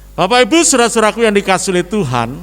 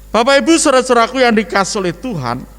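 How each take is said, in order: No difference in how they are said.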